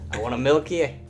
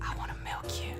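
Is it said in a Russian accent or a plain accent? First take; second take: Russian; plain. First: It is said in a Russian accent. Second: It is said in a plain accent.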